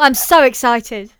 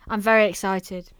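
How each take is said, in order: First: It sounds lively and genuinely excited. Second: It sounds flat and tired, not sincere.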